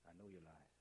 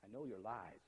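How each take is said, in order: First: "I know your lies" said much softer and lower; soft eerie echo. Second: Said in the usual way. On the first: Shown as a demonstration. Teacher echoing the hidden message, soft and low. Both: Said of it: "is the actual words they say".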